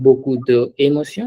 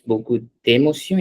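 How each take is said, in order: First: De and émotion are said as separate words. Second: D and émotion are joined into one word. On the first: The speaker calls it wrong. "It's not beaucoup de émotion" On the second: The speaker calls it right. "whenever there's an apostrophe, we read those words together"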